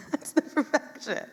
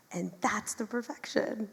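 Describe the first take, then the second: First: High, laughing repeat of the line; a bright laughing echo of that's the perfection. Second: Said in the usual way. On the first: Real, not acted. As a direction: say it again through a delighted laugh. Repeats the line, second time laughing.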